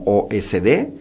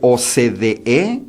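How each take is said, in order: First: The C sounds like S; the E is dropped. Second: Every letter, including the final E, is said. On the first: The speaker calls it wrong. "lo lee como O S D" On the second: The speaker calls it right. "incapaz de pronunciar O C D E o de decir"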